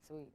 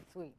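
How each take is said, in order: Both takes have the same delivery.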